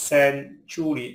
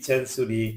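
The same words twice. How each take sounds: First: "century" pulled apart for learners; split syllables. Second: Said in the usual way. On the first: Shown as a demonstration. Word split by syllable, then whole.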